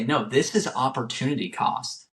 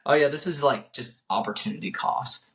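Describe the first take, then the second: First: Emphatic, explanatory retold mentor; mean each word, as if really teaching it; talking with conviction. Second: Offhand, throwaway mock delivery; saying it to say it. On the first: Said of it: "he would literally talk about it". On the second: Mimicking how a mentor would not explain it, saying it to say it. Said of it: "he's just saying it to say it".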